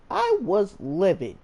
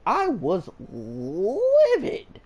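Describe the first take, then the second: First: Said in the usual way. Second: I was livid stretched very slow, livid leaned on; dwelling on his anger, slowed right down; drawn-out livid. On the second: Real, not acted. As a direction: drag out I was livid for weight. Stressing how angry he was.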